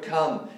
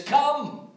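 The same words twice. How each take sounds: First: Said in the usual way. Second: "Come" called out high and strong, falling; exclaimed come. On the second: Shown as a demonstration. Preacher voicing Jesus' invitation, "Come" exclaimed high. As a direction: ring out "Come" like an exclamation mark. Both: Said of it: "is with an exclamation mark".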